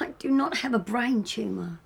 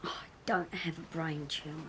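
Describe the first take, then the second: First: Firm stress on "not"; exasperated denial. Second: Low, soft, breath-heavy grumble; weary denial. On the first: Ill partner insisting on no brain tumour, exasperated. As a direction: come down hard on "not", in full exasperation. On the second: Ill partner denying a brain tumour, wearily quiet. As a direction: brush it off under your breath. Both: Acted.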